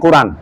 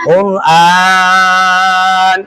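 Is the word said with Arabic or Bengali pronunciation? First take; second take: Bengali; Arabic. First: The word has plain Bengali pronunciation. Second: The word has full Arabic pronunciation. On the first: The speaker calls it wrong. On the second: The speaker calls it right.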